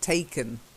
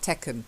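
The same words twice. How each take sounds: First: The first vowel is a long ay sound. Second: The first vowel is a short eh sound. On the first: The speaker calls it right. "this long A" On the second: The speaker calls it wrong. "say eh rather than a"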